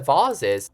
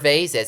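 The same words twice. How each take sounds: First: The word is said in a British way. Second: The word is said in an American way.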